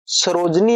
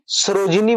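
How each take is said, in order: First: सरोजनी with no i after j; mistaken pronunciation. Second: सरोजिनी with a short i after j; correct pronunciation. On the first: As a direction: drop the middle i, सरोजनी. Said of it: "वो गलत हो जाएगा". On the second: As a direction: sound the "ji" in सरोजिनी. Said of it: "सरोज में सरोजिनी बनेगा". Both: Shown as a demonstration.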